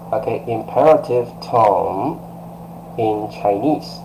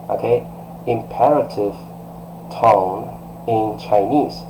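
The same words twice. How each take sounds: The two takes are said the same way.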